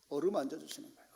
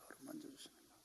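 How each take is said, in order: First: Said in the usual way. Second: 어루만져 주시는 거예요 whispered much softer; whispered echo. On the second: Shown as a demonstration. Preacher echoing his point to the congregation, whispered.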